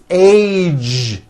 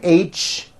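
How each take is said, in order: First: The final consonant is voiced. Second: The final consonant is voiceless. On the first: The speaker calls it right. "age with a voiced ending" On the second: The speaker calls it wrong. "It's not H"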